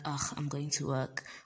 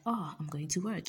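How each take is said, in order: First: It sounds reluctant and weary. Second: It sounds happy and eager.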